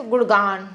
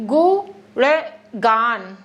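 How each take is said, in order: First: Quick गुणगान, syllables slurred together; said quickly, run together. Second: गुणगान stretched out very slowly, each syllable clear; slow careful pronunciation. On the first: Teacher shows a hurried gुणगान, said fast. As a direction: rattle off गुणगान fast without separating sounds. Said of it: "जहाँ पर जल्दी से". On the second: Teacher models careful slow गुणगान for students. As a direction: spell गुणगान out by sound, slow and deliberate. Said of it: "थोड़ी किया करो कि फटाक से बोल दे रहे हैं". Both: Shown as a demonstration.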